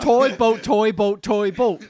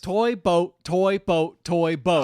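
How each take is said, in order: First: It is said at a faster pace. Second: It is said at a slower pace.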